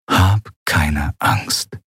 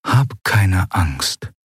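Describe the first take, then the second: First: Inner voice. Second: Calm yourself from within; inner voice. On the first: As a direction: whisper it to yourself to stay calm. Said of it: "eine Stimme tief in ihrem Inneren". (sehr langsam und sanft, innere Stimme) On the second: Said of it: "hörte sie eine Stimme tief in ihrem Inneren". (leise, tröstende innere Stimme) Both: A narrator's reading.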